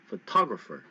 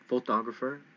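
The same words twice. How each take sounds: First: The stress is on the second syllable. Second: The stress is on the first syllable. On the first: The speaker calls it right. "You hit the T O really loud" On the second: The speaker calls it wrong. "Is it photographer? No"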